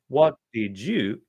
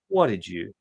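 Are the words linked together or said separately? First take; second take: separate; linked. First: Each word is said separately and clearly. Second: The words run together into one block. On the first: "instead of saying" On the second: "the words come together like magnets"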